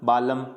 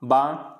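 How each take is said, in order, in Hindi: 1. l बोला जाता है। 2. l साइलेंट है।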